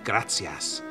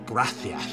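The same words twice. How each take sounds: First: The s sound is a plain hissing s. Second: The s sound is lisped like th. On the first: "none of their royals could actually say gracias" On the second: "They could only say gracias"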